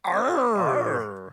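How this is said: It sounds cheerful and happy.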